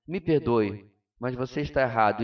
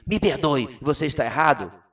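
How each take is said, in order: First: Gentle tone. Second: Blunt tone. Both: Shown as a demonstration. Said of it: "A única diferença é a entonação de voz".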